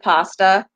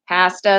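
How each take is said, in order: First: The word is said the American way. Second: The word is said the Canadian way. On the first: "instead of pasta" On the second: "Pasta instead of"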